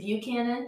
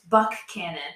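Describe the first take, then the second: First: The name does not begin with a buck sound. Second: The name begins with a clear buck sound. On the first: This is how the Virginia place is named. The speaker calls it wrong. "that's how you say it, the one down in Virginia" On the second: This is how the local town is named. The speaker calls it right. "But we have a K"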